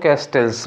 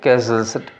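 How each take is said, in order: First: A t sound is pronounced in the word. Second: No t sound is pronounced in the word. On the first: The speaker calls it wrong. "थोड़ा pronunciation गड़बड़ है तो हम लोग उसको कैस्टल्स बोलते हैं" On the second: The speaker calls it right. "उसमें टी नहीं बोलना चाहिए"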